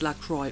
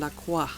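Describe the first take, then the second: First: The name is said with an English-sounding pronunciation. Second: The name is said with a French-sounding pronunciation. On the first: The speaker calls it right. "but I guess it's LaCroix" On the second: The speaker calls it wrong. "I always went for like a more French pronunciation"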